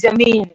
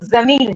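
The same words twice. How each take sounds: First: The word begins with a j sound. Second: The word begins with a z sound. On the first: The speaker calls it wrong. "लोग fluently कहते हैं जमीन, लेकिन नहीं" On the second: The speaker calls it right. "वो जमीन है"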